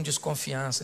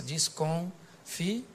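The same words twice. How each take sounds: First: Said in the usual way. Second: "desconfiança" very slow, broken by pauses; soft, drawn-out "desconfiança" in separate pieces; syllable by syllable. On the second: Shown as a demonstration. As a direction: stretch "desconfiança" out, pausing between the syllables. Repeats the word broken into syllables.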